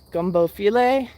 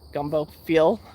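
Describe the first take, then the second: First: The second word has two syllables ending in ay. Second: The second word is one syllable, like feel. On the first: The speaker calls it right. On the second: The speaker calls it wrong.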